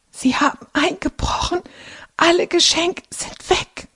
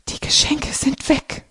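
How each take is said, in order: First: Croaking in shock. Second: Breathless whisper, no voice, much higher; frightened whisper. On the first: Carlotta croaks to family about the break-in. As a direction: squeeze the words out through fear. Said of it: "krächzt Carlotta". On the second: Carlotta whispers to family that gifts are gone. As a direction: whisper it in shock. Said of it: "flüstert Carlotta". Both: A narrator's reading.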